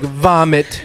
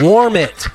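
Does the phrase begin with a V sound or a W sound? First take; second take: V sound; W sound. First: It begins with a V sound, like 'vomit'. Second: It begins with a W sound, like 'warm'. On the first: Someone else said it, with an accent. "the way it was coming out, he kept saying, vomit" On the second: The intended words are finally understood. "And I was like, warm it"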